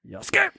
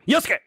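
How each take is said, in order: First: It is said plainly, without announcer flair. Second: It is said forcefully like a Japanese announcer.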